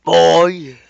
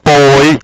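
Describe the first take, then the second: First: Put-on loud high shout of Boy!. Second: Put-on Boy! yelled full force; louder shout. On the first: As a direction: bark Boy! across the room. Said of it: "I can do that better". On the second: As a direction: blast Boy! as loud as you can. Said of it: "that's better". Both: Shown as a demonstration.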